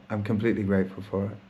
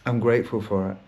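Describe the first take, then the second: First: Completely leaned on, quicker, rising at the end; stress on completely. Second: Said in the usual way. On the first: Shown as a demonstration. Restating gratitude to listeners, stress on completely. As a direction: push the word completely to insist.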